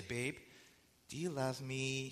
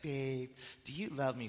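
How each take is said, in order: First: Softer, slower coaxing ask; mock-sweetly fishing for a favor; wheedling question. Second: A softer, nose-crunched coaxing voice; cutesy wheedling. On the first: Wife sweetly coaxing husband before asking a favor, softer and slower. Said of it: "She'll say it just like that". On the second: Retold or imitated. Wife coaxing husband into a favor, cutesy and softer. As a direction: imitate her cute pleading ask. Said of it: "She's crunching up her nose like that".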